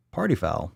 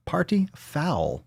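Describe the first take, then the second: First: Said in the usual way. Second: Slow whisper of "Party foul". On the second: Shown as a demonstration. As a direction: hiss it out sadly. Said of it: "repeated plain".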